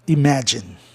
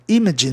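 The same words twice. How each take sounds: First: The stress is on the second syllable. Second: The stress is on the first syllable. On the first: The speaker calls it right. "o A ali ficou como, do M A, ficou a sílaba mais forte" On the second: The speaker calls it wrong. "imagine não ia pegar bem"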